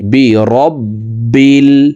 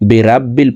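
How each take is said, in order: First: The vowel after the r is full and rounded. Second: The vowel after the r is open and thin. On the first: The speaker calls it right. "সঠিকভাবে আমাদের পড়তে হবে" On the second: The speaker calls it wrong. "এই রা হরফের উচ্চারণ সঠিকভাবে পড়তে পারি না"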